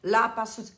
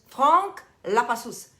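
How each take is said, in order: First: "La Passus" said plainly, "pasus" with a flat a; plain try at "La Passus"; plain English try. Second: "Frank La Passus" slow, with a nasal French "Fran"; hammed French "Frank La Passus"; mock French full name. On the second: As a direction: roll it out slowly like a French name. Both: Shown as a demonstration. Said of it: "was that very good?".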